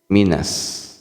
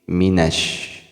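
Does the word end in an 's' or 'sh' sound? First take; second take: s; sh. First: The final consonant is an 's' sound. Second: The final consonant is an 'sh' sound. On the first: The speaker calls it wrong. "Jangan sampai terbaca sin" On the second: The speaker calls it right. "tapi ditambahkan dengan sy"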